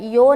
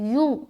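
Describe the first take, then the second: First: The syllable is said with an o vowel. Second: The syllable is said with an u vowel. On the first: The speaker calls it wrong. "यो नहीं बोलना" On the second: The speaker calls it right. "बल्कि यू यू यू"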